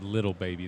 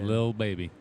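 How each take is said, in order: First: The first word has two syllables. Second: The first word has one syllable. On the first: The speaker calls it wrong. "I said [name]. That's wrong, right?" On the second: The speaker calls it right. "It's Lil"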